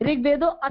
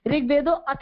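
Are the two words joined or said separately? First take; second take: separate; separate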